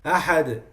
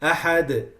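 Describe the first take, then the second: Both takes have the same delivery.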